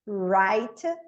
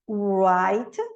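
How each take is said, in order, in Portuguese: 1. A palavra começa direto com um som de R. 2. A palavra começa com um som de W arredondado. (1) "ele é direto na letra R do inglês" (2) "se eu pronunciasse o W, ia ser"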